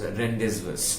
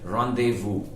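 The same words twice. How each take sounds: First: It is read letter by letter as spelled. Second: It is pronounced the French way. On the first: The speaker calls it wrong. "literally and, and say it as rendezvous. It is not rendezvous" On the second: The speaker calls it right. "the way it is said in French, and it is rendezvous"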